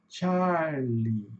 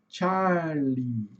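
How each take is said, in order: Both takes have the same delivery.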